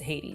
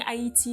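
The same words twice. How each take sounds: First: The name has the English pronunciation. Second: The name has a non-English pronunciation. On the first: This is the standard pronunciation in English. "in English it's Haiti" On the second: This is the pronunciation the speaker grew up with. "I grew up saying Haiti, and so it sounds more natural to me"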